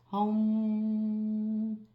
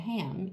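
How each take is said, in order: First: The vowel sounds like the 'o' in home. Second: The vowel sounds like the 'a' in cat. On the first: The speaker calls it right. "you say home" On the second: The speaker calls it wrong. "instead of saying ham"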